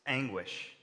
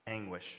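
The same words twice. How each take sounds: First: Said in the usual way. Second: Anguish dropped much softer, lower and falling; softly repeated Anguish; quiet echo. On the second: Shown as a demonstration. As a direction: let Anguish fall away almost under the breath. Preacher repeats word for effect.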